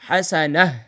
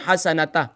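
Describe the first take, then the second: First: The word ends with an h sound. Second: The word ends with a t sound. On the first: The speaker calls it right. "बल्कि यहां क्या पढ़ेंगे" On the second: The speaker calls it wrong. "यहां इस तरीके से स्टॉप नहीं करेंगे"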